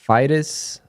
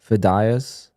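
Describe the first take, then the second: First: The name ends in a short 'dus' sound. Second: The name ends in 'dee-ahs', like Spanish días. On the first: "Fidus is what I say" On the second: "probably how you say it. But dias, as in like days in Spanish"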